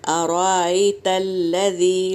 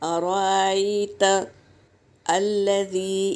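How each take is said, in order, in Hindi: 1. शब्द बिना किसी रुकावट के आपस में मिलाकर पढ़े जाते हैं। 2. दूसरे शब्द से पहले रुकना है। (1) "यहाँ पर हमको मिला के पढ़ना है" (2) "हम अराइता पे रुक गए"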